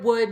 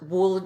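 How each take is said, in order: First: The word is said without an L sound. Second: The L sound is pronounced in the word. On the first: The speaker calls it right. "No L there" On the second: The speaker calls it wrong. "It's not"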